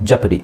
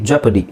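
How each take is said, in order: Both takes have the same delivery.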